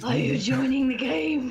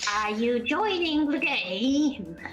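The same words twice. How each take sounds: First: It is spoken in a deep voice. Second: It is spoken in a normal voice.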